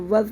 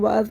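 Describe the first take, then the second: First: The vowel is short and quick. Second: The vowel is drawn out long. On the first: The speaker calls it right. "इसको वज़ पढ़ेंगे जल्दी से" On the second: The speaker calls it wrong. "बहुत से लोग पढ़ते हैं वाज पढ़ देते हैं, इसको वाज नहीं है"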